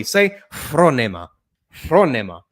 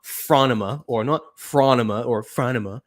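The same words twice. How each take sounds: First: Phronema with Greek short o and clear e; proper Greek pronunciation. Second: "phronema" as FRAH-nuh-muh, then FRAN-uh-muh; anglicised mispronunciations. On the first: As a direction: say "phronema" the Greek way, FRO-neh-ma. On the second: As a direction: flatten "phronema" into English vowels with a weak middle. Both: Shown as a demonstration. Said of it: "then say it properly".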